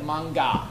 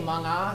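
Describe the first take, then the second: First: "manga" with a hard g after ng; "manga" slipping into a hard g; mispronounced. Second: "manga" with a soft ng sound; "manga" with ng as one nasal sound; correct pronunciation. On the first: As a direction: say "manga" as mang-ga, with an added g. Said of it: "sometimes it sounds like". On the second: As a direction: say "manga" with no hard g after the ng. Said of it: "you know, M G A". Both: Shown as a demonstration.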